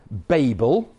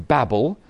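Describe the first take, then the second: First: Said in the usual way. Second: "Babel" with a short a, like "babble"; American pronunciation. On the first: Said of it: "which the Americans always pronounce Genesis eleven as Babel". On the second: Shown as a demonstration. Preacher adopting the American way, "Babel" said as "babble". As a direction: say "Babel" to rhyme with "rabble", not "table". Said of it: "which the Americans always pronounce".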